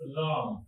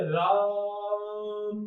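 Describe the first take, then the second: First: Said in the usual way. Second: राम with the आ stretched very long; राम sung out slowly, vowel held on and on; drawn-out pluta vowel. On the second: Shown as a demonstration. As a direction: hold the आ of राम far beyond its normal length. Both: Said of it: "अब जो line बनी चली जा रही है वो लुप्त स्वर की है".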